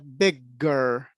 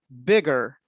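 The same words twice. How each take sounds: First: The g sound is held long and doubled. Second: The g sound is short and single. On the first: The speaker calls it wrong. "and not bigger" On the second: The speaker calls it right. "we never pronounce the double consonants. So we say bigger"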